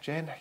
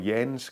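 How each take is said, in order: First: The name ends without an S sound. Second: The name ends with an S sound. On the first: "you don't pronounce the S" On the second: "or Jens"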